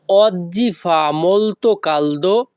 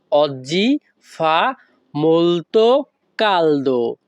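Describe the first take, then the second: First: "oggi fa molto caldo" slowly but joined as one phrase; all together. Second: "oggi fa molto caldo" slowly, with pauses between the words. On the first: Teacher saying the whole sentence at once, "oggi fa molto caldo" joined up. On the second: Teacher repeating the Italian for learners, "oggi fa molto caldo" word by word. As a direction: break "oggi fa molto caldo" into separate slow pieces. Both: Shown as a demonstration. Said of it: "তাহলে একসাথে বললে কি হয়".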